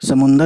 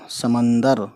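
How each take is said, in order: First: The second vowel is a 'u' sound. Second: The second vowel is an 'a' sound. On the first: "समुंदर भी कहते हैं लोग" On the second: "मैंने ज़्यादातर समंदर पढ़ा है"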